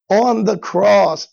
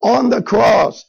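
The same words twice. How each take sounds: First: "on the cross" drawn out slowly, weight on "on"; slow stress on the cross. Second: "on the cross" repeated louder and slower, "on" punched; louder stress on the cross. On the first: Preacher slowing to stress the cross for the congregation. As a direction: lay "on the cross" down slowly, each word weighted. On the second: Preacher repeating it louder to drive the point home. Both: Shown as a demonstration. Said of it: "and this is so powerful, people".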